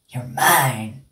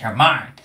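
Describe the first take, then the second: First: It is said in a creepy, eerie voice. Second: It is said in a plain, ordinary voice. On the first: The speaker calls it right. "that's the one" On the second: The speaker calls it wrong. "No, it's not like you're mine"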